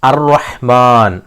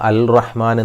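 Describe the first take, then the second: First: The l blends into the r sound. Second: The l is clearly pronounced before r. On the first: The speaker calls it right. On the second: The speaker calls it wrong.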